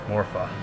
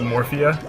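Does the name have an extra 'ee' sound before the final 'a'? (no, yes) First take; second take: no; yes. First: It ends in two syllables, 'mor-fa'. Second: It ends in three syllables, 'mor-fee-a'. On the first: The speaker calls it right. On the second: The speaker calls it wrong.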